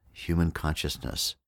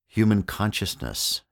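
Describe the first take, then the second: First: Said in the usual way. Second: Human punched higher and louder, then consciousness; emphatic human consciousness. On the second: Shown as a demonstration. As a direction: lean hard on Human in Human consciousness. Restates the phrase with emphasis.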